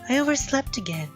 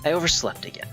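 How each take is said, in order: First: It is said in a high girl voice. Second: It is said in his normal voice.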